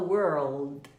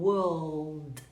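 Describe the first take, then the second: First: American accent, with a curled R. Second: British accent, long vowel, no rolled R.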